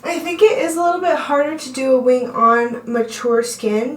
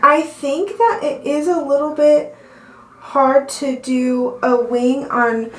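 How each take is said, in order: First: Said in the usual way. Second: Out of breath, slowed down; gasping for air. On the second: Real, not acted. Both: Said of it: "I'm out of breath".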